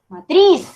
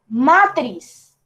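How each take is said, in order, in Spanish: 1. El acento está en la última sílaba. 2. El acento está en la primera sílaba. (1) "el golpe de voz cae en la última sílaba" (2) "Yo no digo matriz"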